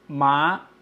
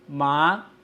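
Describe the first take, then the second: The two takes are said the same way.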